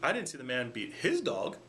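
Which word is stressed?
his. The stress is on "his".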